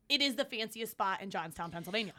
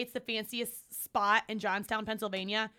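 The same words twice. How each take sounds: First: "is" said in full and stressed. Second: Said in the usual way. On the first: Shown as a demonstration. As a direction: insist with weight on "is". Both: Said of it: "I'm telling you, when I say".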